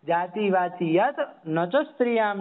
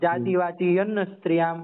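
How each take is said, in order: First: It is read slowly with each word kept separate. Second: It is read quickly with the words run together. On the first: A listener understands the meaning without translation. The speaker calls it right. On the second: Even an educated listener cannot follow the meaning. The speaker calls it wrong.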